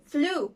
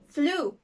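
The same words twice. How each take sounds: First: The vowel is a long 'oo' sound. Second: The same.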